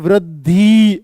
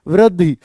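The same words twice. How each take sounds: First: The final vowel is drawn out long. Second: The final vowel is kept short. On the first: The speaker calls it wrong. "वृद्धि ऐसे नहीं बोल सकते इसको" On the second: The speaker calls it right. "वृद्धि बस ऐसे बोलते हैं"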